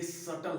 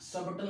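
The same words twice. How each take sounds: First: सटल with no b sound; silent B in सटल. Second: सबटल with a clear b before the t; B sounded in सबटल. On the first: Teacher showing students the right reading, b left silent. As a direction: say सटल, going straight from vowel to t. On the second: Teacher showing students the wrong reading, b pronounced. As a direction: say सबटल wrongly, voicing the silent b. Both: Shown as a demonstration. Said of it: "सबटल नहीं".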